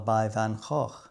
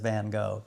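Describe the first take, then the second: First: The name is said with a Dutch pronunciation. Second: The name is said with an American pronunciation. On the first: "I got that pronunciation a little bit better that time" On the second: "Otherwise known in America as"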